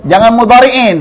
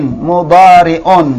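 First: Warn: not mudhari'in; teacher flags the wrong ending in; wrong reading. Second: Mudhari'un slow with a clear un; slowly: mudhari'un, the un ending; teacher corrects to mudhari'un; correct reading. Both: Shown as a demonstration.

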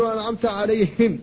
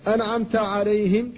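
First: عليهم with the ه voiced, a mistake. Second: عليهم with ه kept voiceless and light; breathy ha. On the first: Teacher imitates common wrong reading of عليهم. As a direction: give the ه in عليهم a voiced buzz. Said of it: "بعض الناس يقول". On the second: Teacher shows correct voiceless ha in عليهم. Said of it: "فقل". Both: Shown as a demonstration.

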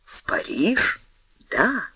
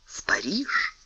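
First: Whispered echo. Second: Unvoiced whisper. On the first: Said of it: "Портос подскочил". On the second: Aramis whispers the destination to Porthos, hushed. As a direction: breathe it out secretly. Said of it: "unvoiced whisper, Aramis secret". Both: A narrator's reading.

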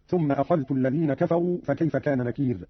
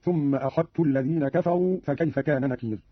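First: Said in the usual way. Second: "أخذت" with ذ assimilated into a doubled ت; dhal merged into ta. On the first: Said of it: "قرأ قالون بإضغام الذال في التاء". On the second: Shown as a demonstration. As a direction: say "أخذت" as akhattu, no dh heard. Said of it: "بإضغام الذال في التاء هكذا".

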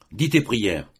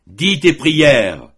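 First: Said in the usual way. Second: A loud, high, very slow dreadful command; terrible voice. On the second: A narrator's reading. Father repeats the order to his son, terrible voice. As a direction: drag each word out like a death sentence. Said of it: "d'une voix terrible".

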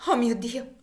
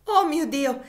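First: Higher, louder gasp of horror; shocked exclamation. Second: Much higher, louder cry breaking; fainting scream. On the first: Cassie realizing her lost daughter, a shocked cry. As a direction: cry out in sudden recognition. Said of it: "esclamò Cassie". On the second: Cassie about to faint, a loud despairing cry. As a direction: scream it as she collapses. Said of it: "esclamò Cassie e cadde svenuta". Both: Acted.

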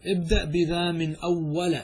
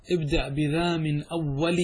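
First: Slow, "أول" ending in short a; fatha reading. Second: Slow, "أول" ending in short i; kasra reading. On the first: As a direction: say "أول" as awwala. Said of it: "والفتح على الإعراب". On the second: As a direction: say "أول" as awwali. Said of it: "والكسر على نية المضاف". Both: Shown as a demonstration.

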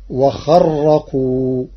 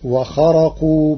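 First: وخرقوا براء مشددة ببطء شديد; شدد الراء في وخرقوا; تشديد الراء. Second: وخرقوا براء خفيفة ببطء; اقرأ وخرقوا بتخفيف الراء; الراء مخففة. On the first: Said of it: "بتشديد الراء". (قراءة ورش بالتشديد للتكثير) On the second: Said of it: "قرأ ورش كلمة". (قبل تشديد الراء) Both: Shown as a demonstration.

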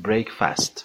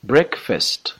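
First: "breakfast" with a full "fast" ending; common mispronunciation. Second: "Breakfast" with a reduced "fest" ending, higher; correct pronunciation. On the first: Teacher shows learners a common mistake, mispronouncing "breakfast" with "fast". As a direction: say "breakfast" wrongly as brek-FAST, with an open a. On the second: Teacher corrects a common mistake, "Breakfast" pronounced BREK-fest. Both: Shown as a demonstration.

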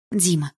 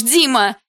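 First: Said in the usual way. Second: «Дима» cried out higher and much louder in panic; frightened shout. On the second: A narrator's reading. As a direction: scream «Дима» in fear. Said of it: "испуганно закричала я".

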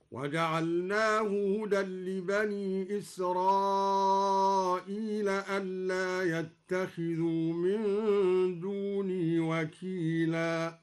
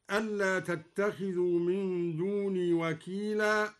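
First: Slow chant with يتخذوا starting on ya, not ta; ya of the absent. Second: Said in the usual way. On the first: Shown as a demonstration. Teacher chants al-Duri's reading, يتخذوا with ya. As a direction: recite يتخذوا as yattakhidhu. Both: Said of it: "قرأ الدوري بياء الغيبة هكذا".

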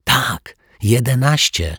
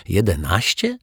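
First: Tak, jedenaście said high and eager with a firm fall on jedenaście; excited whisper. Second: Jedenaście? echoed with a rising, disbelieving lift; incredulous question. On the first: Zuzia eagerly confirms the cake had eleven candles. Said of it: "szeptała podekscytowana Zuzia". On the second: Stunned detective repeats the kids' answer, disbelieving. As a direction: ask Jedenaście? as if you can't believe it. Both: A narrator's reading.

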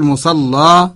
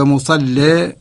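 First: مصلى with a thick, heavy lam and a plain open a at the end. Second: مصلى with a thin, light lam and the final a leaning toward e; light lam with imala. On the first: Teacher showing students the first reading: مصلى with heavy lam and open a. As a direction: say مصلى as musalla, the lam full and dark, ending on a clear a. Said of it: "نغلظ اللام و-، ونفتح". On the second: Teacher showing students the second reading: مصلى with light lam and imala. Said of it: "نأتي بترقيق اللام مع الإمالة". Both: Shown as a demonstration.

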